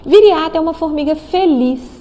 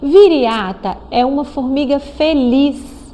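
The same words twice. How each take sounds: First: The sentence is read at a faster pace. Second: The sentence is read at a slower pace.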